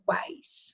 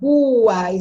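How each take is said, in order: First: The u glides and the a is strongest. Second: The u is said as a full vowel. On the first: The speaker calls it right. "eu falo quais. Ó, o A é mais forte" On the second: The speaker calls it wrong. "porque eu não falo quais"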